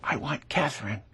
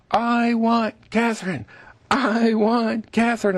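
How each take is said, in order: First: Soft, hushed little plea from a rose; a rose quietly asks for Catherine, softly. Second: High, slow pleading chant of flowers; chorus of roses. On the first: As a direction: murmur it like a shy flower. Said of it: "and very quietly says". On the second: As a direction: pitch it up like a crowd of roses calling. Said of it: "all the roses in the garden are going". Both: Pretend.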